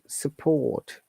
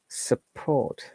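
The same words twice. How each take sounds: First: The R sound is silent, British style. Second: The R sound is pronounced, American style. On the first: "no R sound, and there is schwa sound" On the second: "for the American uh, pronunciation, this is support"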